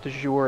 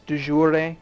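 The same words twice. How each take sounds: First: It is pronounced in a French-sounding way. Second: It is pronounced in an Italian-sounding way. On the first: The speaker calls it wrong. "I always pronounce it de jure. It's not right" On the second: The speaker calls it right. "It's de jure, which is a it sounds Italian to me, but I know it's right"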